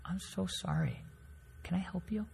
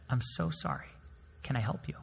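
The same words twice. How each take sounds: First: Much softer, gentle and polite; calmly. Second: Softly, politely defusing the anger; much softer, gentle apology; calm and soft. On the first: Professor calmly answering the yelling man, much softer. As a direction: answer the yelling quietly, to defuse it. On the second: Server calmly answering a yelling customer, soft and polite. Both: Retold or imitated. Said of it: "My professor calmly says".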